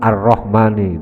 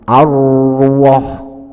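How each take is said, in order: First: The vowel after the R is an 'a' sound. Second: The vowel after the R is a 'u' sound. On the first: The speaker calls it right. "yang asalnya fathah" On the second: The speaker calls it wrong. "dibaca doma"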